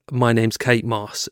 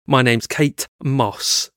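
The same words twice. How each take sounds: First: Said in the usual way. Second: Kate and Moss as two separate words, slowly; split name. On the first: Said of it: "So instead of saying". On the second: Retold or imitated. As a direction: say "Kate Moss" with a gap between Kate and Moss. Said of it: "she went".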